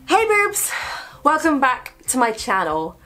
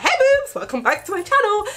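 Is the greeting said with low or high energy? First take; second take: low; high. First: It is said with flat, low energy. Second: It is said with happy, high energy.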